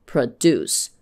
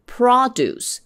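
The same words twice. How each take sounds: First: "produce" as pruh-DUCE, lower pitched; verb stress. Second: "Produce" as PRO-duce, first syllable high; noun stress. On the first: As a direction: stress the second syllable of "produce". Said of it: "could be pronounced differently". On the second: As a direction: punch the start of "Produce". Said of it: "same word in a different part of speech". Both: Shown as a demonstration.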